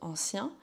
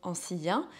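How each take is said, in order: First: The word is said in two syllables. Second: The word is said in three syllables. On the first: The line is read as everyday speech. "Si je le prononce de manière euh, totalement courante, j'arrive à onze" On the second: The line is read as a full alexandrine. "Si je fais la diérèse à ancien, donc que je sépare le si du un"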